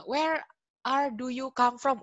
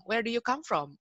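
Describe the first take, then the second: First: Higher, louder mock learner, word by word; learner's wrong English. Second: Lightly acted pedant, higher and louder; grammar Nazi correction. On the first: Teacher demonstrates a bad-grammar question, high and loud mock learner. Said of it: "Gimana sih bahasa Inggris yang salah?". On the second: Grammar stickler shows a learner the right question, raised insistent voice. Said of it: "terus di grammar Nazi ini nanti". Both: Shown as a demonstration.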